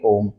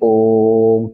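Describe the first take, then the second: First: The o vowel is held briefly. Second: The o vowel is drawn out three times longer. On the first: "एक मात्रा के बराबर बोलेंगे" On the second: "तीन मात्रा के बराबर बोलेंगे यानी कि इससे भी ज्यादा"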